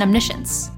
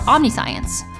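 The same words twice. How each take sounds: First: It is pronounced in the standard established way. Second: It is pronounced the way it looks spelled. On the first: The speaker calls it right. "it's actually" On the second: The speaker calls it wrong. "you might determine the pronunciation in your head"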